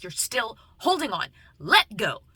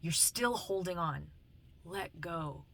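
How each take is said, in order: First: Intense, punched-up villain quote; raised, forceful movie-line delivery; Kylo Ren. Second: Softly repeated movie quote; quiet, measured counsel; gentle spiritual message. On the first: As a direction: act out an urgent movie plea, louder at the end. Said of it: "and he's like". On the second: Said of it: "speaks to me in, um, song lyrics". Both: Retold or imitated.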